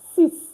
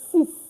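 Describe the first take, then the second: The two takes are said the same way.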